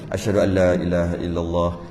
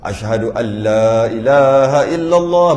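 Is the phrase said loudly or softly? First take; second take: softly; loudly. First: The phrase is said softly and quietly. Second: The phrase is said loudly and strongly. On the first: "seluk perlahan lah, sir" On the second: "baru kuat"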